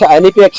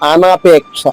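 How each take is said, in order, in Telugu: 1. మొదటి 'n' తర్వాత ఉన్న అచ్చు 'i'. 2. మొదటి 'n' తర్వాత ఉన్న అచ్చు 'a'. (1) "అనిపేక్ష కాదు"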